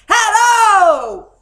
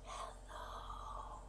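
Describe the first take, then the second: First: It is said very loudly. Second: It is said very quietly.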